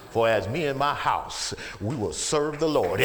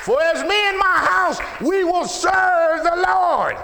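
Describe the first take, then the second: First: Said in the usual way. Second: High, full-force preaching shout; roaring declaration of faith; shouted scripture. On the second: Real, not acted. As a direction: belt out the verse, stretching the end.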